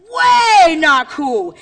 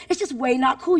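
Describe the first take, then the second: First: Big, loud, higher WAY held long; drawn-out catchphrase. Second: Said in the usual way. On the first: Shown as a demonstration. Speaker leads teachers in the catchphrase, loud and stretched. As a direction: call it out slowly like a crowd chant.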